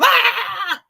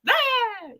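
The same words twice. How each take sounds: First: It is a big, loud scare. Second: It is a small, softer scare.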